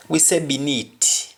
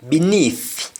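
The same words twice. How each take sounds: First: "beneath" with a hard t, binit; Patois beneath. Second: "Beneath" with a clear th, high and firm; English beneath; standard beneath. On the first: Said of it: "in Patois we rarely use". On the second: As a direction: stress the th in "Beneath". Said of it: "Instead of beneath". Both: Shown as a demonstration.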